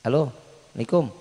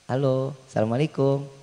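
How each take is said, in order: First: It is said in a plain, flat tone. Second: It is said in a soft, sweet tone.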